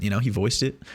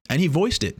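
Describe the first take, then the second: First: He voiced it with the weight moved onto he; correcting, stress on he instead of voiced. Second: Voiced lifted high and hit hard; stress on voiced. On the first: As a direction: hit the word he, let voiced drop. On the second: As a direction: lean on the word voiced. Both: Shown as a demonstration.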